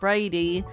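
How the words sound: It is said with an Australian accent.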